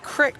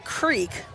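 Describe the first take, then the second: First: The vowel is short, like 'crick'. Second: The vowel is long, like 'creek'. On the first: "I kept saying crick because they tell me that if you're from there" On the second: "so you said creek"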